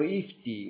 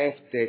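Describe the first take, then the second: First: The term is said with English-style vowels. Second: The term is said with Italian-style vowels. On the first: "lo dicono IFTI all'inglese" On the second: "noi lo possiamo chiamare all'italiana EFTE"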